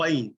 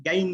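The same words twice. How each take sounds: First: غین with a thick, rounded throat sound; bold ghayn. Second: گین with a thin light g, not ghayn; wrong light g. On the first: Teacher showing the bold correct ghayn. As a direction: round the mouth for a heavy غین. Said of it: "bold پڑھنے سے مراد کیا ہے". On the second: Teacher showing the wrong light reading. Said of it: "میں گین نہیں پڑھوں گا". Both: Shown as a demonstration.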